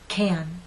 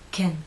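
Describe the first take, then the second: First: The vowel is long and strong. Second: The vowel is short, lips slightly relaxed. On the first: "The first one is stressed" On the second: "the unstressed pronunciation"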